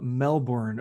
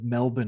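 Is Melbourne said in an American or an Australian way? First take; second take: American; Australian. First: It is said in a general American way. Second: It is said the way Australians say it.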